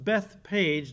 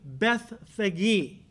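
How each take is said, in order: First: The name is said with a plain p sound. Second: The name is said with an f sound. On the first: This is the common modern way of saying it. The speaker calls it wrong. "this is often pronounced Bethpage, that's incorrect" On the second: This is how it was originally said. The speaker calls it right. "The Greek is literally Bethphage"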